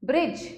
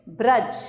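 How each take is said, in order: First: ब्रिज with a clear "i", "brij"; higher ब्रिज with "ri" for "ra"; misspelt ri sound. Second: Said in the usual way. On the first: Shown as a demonstration. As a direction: say ब्रिज to rhyme with "bridge". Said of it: "री और र की अशुद्धियां". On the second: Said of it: "री और र".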